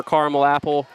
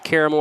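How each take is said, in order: First: CARAMEL said as CAR-mul before apple; two-syllable caramel. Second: CARAMEL said as CARE-uh-mel; three-syllable caramel. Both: Shown as a demonstration. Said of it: "if you don't know how to pronounce words".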